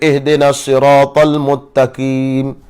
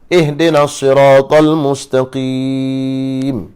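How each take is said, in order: First: The last word has no s sound. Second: The last word has an s sound. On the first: The speaker calls it wrong. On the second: The speaker calls it right.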